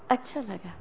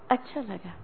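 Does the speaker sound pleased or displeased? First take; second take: displeased; displeased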